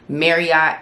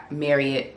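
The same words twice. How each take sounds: First: Marriott said crisply, first syllable MARE; the polished corporate way to say Marriott; mock corporate Marriott. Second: Marriott said casually, ending like MARRY-ott; the relaxed way staff say Marriott; everyday Marriott. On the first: Explaining the company name to her followers, corporate pronunciation. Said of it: "really it's Marriott". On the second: Telling followers how insiders say it, casual Marriott. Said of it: "We say Marriott". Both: Shown as a demonstration.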